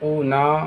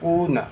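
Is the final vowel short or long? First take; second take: long; short. First: The final vowel is drawn out long. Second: The final vowel is short and quick. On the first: The speaker calls it wrong. "इस तरह से नहीं अदा करना है" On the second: The speaker calls it right. "बल्कि जल्दी अदा करना है"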